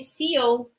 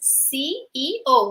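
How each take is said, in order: First: It is said with a Brazilian Portuguese pronunciation. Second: All three English letter names are said clearly. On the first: The speaker calls it wrong. "we Brazilians, we generally mispronounce this word. So we, we generally say C E O" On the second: The speaker calls it right. "the correct way is C E O. We have to pronounce the three letters"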